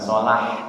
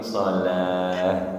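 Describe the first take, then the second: First: It ends with a tense, raspy mid-throat h. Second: It ends with a soft, breathy low-throat h. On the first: The speaker calls it wrong. "Bukan sholah" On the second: The speaker calls it right. "tapi sholah"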